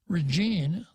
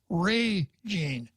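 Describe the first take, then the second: First: The stress is on the second syllable. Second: The stress is on the first syllable. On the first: The speaker calls it wrong. "it shouldn't be pronounced Regine" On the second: The speaker calls it right. "The stress should be on the first syllable"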